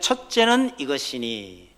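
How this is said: A clear break comes right after 이것이니. The command is a quoted verse from scripture. The speaker calls it right. "여기 끊어버려야 됩니다"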